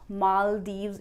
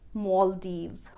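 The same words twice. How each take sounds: First: The stress is not on the first syllable. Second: The stress is on the first syllable. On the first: "Maldives is also an acceptable pronunciation" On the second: "I prefer to speak it as Maldives"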